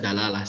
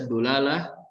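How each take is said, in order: First: The first vowel is an a sound. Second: The first vowel is a u sound. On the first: "bisa dibaca dalalah" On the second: "bisa dibaca dulalah"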